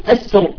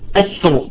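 First: The r is pronounced heavy and thick. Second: The r is pronounced heavy and thick.

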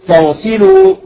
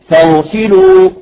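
Both takes have the same delivery.

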